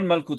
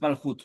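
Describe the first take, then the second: First: The middle consonant is a hard k sound. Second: The middle consonant is a throaty ch sound. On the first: The speaker calls it wrong. "not Malchut" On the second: The speaker calls it right. "it's Malchut, There is no dot in the Chaf"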